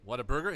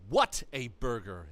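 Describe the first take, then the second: First: It is said flatly, as a plain name. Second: It is said excitedly, as an admiring exclamation. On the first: It names the restaurant chain. The speaker calls it wrong. "it's not Whataburger" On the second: The burger is amazing. The speaker calls it right. "what an amazing burger"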